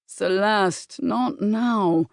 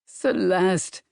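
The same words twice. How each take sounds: First: A firm, dismissive male voice; Bram's firm refusal. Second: Pleading. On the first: Bram refusing Celeste behind the library door, firm. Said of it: "that familiar male voice". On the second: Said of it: "But this time with a pleading tone". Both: Acted.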